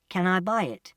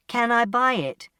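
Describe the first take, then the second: First: Said in the usual way. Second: Higher, more forceful asking; insistent question. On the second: Acted. Customer to silent shopkeeper, insistent. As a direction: press for an answer with raised pitch. Asks again after no answer.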